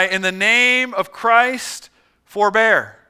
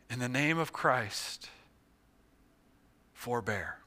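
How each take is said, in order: First: Loud, slow, drawn-out command; yelled plea. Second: Soft, low, fading plea; dying call. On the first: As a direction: yell to stop the fighters. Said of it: "he yelled with his hands high". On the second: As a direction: call out with your last air. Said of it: "what air he still had in his lungs". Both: Acted.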